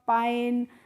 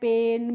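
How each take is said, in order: First: The vowel sounds like 'eye'. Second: The vowel sounds like 'ay' in day. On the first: The speaker calls it wrong. "अगर आपको rule नहीं मालूम होता" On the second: The speaker calls it right. "आपको rule पता है तो आपने इनको पढ़ा है"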